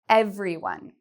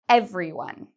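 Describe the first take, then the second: First: The word is said with three syllables. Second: The same.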